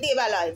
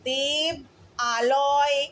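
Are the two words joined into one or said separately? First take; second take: joined; separate. First: The two words merge into one, vowels joined. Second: The two words are said separately, vowels apart. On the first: The speaker calls it right. "সন্ধি করে দিলাম, তাই জন্য আমি বলছি আমি দেবালয় যাচ্ছি" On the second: The speaker calls it wrong. "সন্ধি না হলে আমি দেব আলয় গেছি এরকম ভাবে বলতাম"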